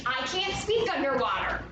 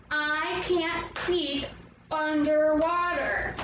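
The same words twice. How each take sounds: First: Said in the usual way. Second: "I can't speak underwater" slow, in even beats; syllable by syllable. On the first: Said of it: "What about if we needed to say". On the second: Shown as a demonstration. Teacher leads the movements for Atlantis, slowly beat by beat. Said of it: "So we're gonna go".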